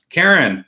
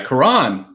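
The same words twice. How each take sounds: First: "Karen" said like the common English name; mistaken name pronunciation. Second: "Karan" with stress on the second syllable; corrected name pronunciation. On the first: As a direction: say "Karen" with stress up front. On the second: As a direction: say "Karan" as kuh-RAHN. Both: Real, not acted. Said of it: "I'm sorry, Karan".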